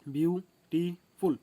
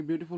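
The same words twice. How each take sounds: First: ब्यूटीफुल drawn out slowly as one word, a little louder, falling at the end; slow whole word. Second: Said in the usual way. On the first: Shown as a demonstration. Teacher to students, saying ब्यूटीफुल slowly after splitting it. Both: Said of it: "तीन part में भांगते हो".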